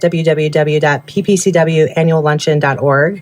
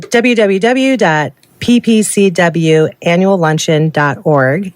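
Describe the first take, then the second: First: It is said at normal, quicker speed. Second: It is said more slowly.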